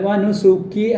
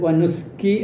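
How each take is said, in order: First: A vowel is sounded after the s. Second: No vowel is sounded after the s. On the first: The speaker calls it right. "വനുസുക്കി എന്നാണ് പറയേണ്ടത്" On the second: The speaker calls it wrong. "വനുസ്കി എന്നല്ല, സീനിന് സുക്കൂൻ അല്ല"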